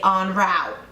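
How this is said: It is said with an American pronunciation. "But then Americans say en route"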